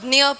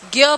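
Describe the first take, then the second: First: The syllable sounds like d, n joined with y. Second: The syllable sounds like g joined with y. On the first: "Marathi में इसको ज्ञ पढ़ते हैं।" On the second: "Hindi में क्या पढ़ेंगे? इसको ज्ञ पढ़ेंगे।"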